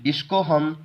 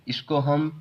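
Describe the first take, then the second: No difference in how they are said.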